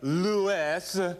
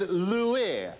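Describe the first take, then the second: First: The name ends with an s sound. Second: The name ends with an ee sound. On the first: The speaker calls it wrong. "It's not Lewis" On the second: The speaker calls it right. "it's Louis. L-O-U-E-Y"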